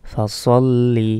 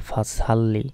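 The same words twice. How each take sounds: First: "সল্লি" with heavy, rounded sad s, drawn out; correct pronunciation. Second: "সাল্লি" with a thin sin s and open a; mispronounced. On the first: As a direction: say "ফা সল্লি" slowly with a full-mouthed s. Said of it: "সঠিক উচ্চারণটাই বলতে হবে". ("সল্লি" মোটা সদে টেনে উচ্চারণ) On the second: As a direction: say "ফা সাল্লি" with a light s. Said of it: "ভুল উচ্চারণ করে বলি". ("সাল্লি" পাতলা সিনে ভুল উচ্চারণ) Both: Shown as a demonstration.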